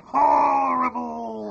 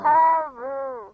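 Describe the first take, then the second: First: Slow, loud pinched-nose drawl; nose-held voice. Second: Slow pinched-nose reply; nose-held voice. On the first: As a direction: hold your nose and stretch it out. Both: Shown as a demonstration. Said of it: "hold your nose and say".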